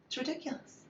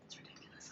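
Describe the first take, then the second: First: Said in the usual way. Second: Unvoiced, dropped to a whisper; whispered exasperated aside; whispered under breath. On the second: Real, not acted. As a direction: mutter it to yourself.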